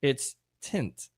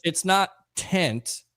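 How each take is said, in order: First: "tint" with a clear short i. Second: "tent" said with a short open e, slowly; not tent. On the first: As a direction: say "tint" plainly with an i sound. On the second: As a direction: stretch out "tent" like a Boston tent. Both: Shown as a demonstration.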